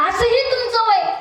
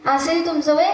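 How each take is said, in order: First: High, emphatic opening on असंही; raised, pointed line. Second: Said in the usual way. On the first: Acted. Boy points out the grandfather's age, pitched high. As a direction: hit असंही high and fall away.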